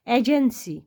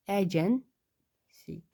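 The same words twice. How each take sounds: First: Said in the usual way. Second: agency stretched out slowly while writing; slow drawn-out dictation. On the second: Shown as a demonstration. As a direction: draw out agency syllable by syllable as you write it.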